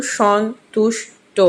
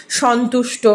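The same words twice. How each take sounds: First: সন্তুষ্ট slowly split as সন্-তুষ্-ট; syllable by syllable. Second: Said in the usual way. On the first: Shown as a demonstration. Teacher giving a three-syllable example, সন্তুষ্ট broken into its parts. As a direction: separate সন্, তুষ্, ট with clear pauses. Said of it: "তিনটি দল লিখতে পারো". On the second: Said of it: "তো তিনটি দল".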